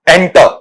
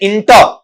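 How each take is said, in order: First: The word begins with an 'e' vowel sound. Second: The word begins with an 'i' vowel sound. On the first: The speaker calls it right. "इंटर नहीं एंटर, एंटर इस तरीके से पढ़ा जाएगा" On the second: The speaker calls it wrong. "अपन इसे पढ़ जाते हैं इंटर, इंटर इंटर नहीं होता बेटा"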